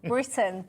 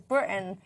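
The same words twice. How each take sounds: First: The middle T is clearly pronounced. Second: The middle T is dropped for a glottal stop. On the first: The speaker calls it right. "use the letter T's" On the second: The speaker calls it wrong. "she says Britain"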